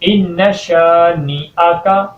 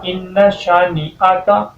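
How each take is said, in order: First: The vowel after sh is long. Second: The vowel after sh is short. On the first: The speaker calls it right. "एक अलिफ के बराबर आप शीन को लंबा करेंगे" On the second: The speaker calls it wrong. "शीन को लंबा नहीं करते ... ये गलत है"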